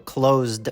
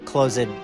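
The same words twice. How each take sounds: First: The ending is a plain d sound. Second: The ending is an extra id syllable. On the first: The speaker calls it right. "It sounds like a D" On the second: The speaker calls it wrong. "My students tend to use id for all past tense verbs"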